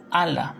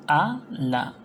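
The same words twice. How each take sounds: First: Said in the usual way. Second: "a, la" said as two separate syllables; split into syllables. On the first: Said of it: "la separación a, la". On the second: Shown as a demonstration. Teacher showing syllable division, "a, la" split in two. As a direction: break "a, la" with a clear pause between a and la. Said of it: "la separación".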